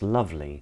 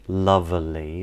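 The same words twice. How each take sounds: First: The middle E is dropped entirely. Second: The middle E is pronounced as a vowel. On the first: The speaker calls it right. "it's pronounced lovely" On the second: The speaker calls it wrong. "the E in lovely isn't pronounced lovely"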